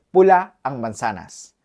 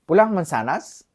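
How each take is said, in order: First: Said in the usual way. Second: "Pula ang manzanas?" with the tune rising at the end; same words, question made with a rise alone. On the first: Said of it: "se dice". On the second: Shown as a demonstration. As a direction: ask it only by lifting the voice on "manzanas". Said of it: "solo cambiando la entonación".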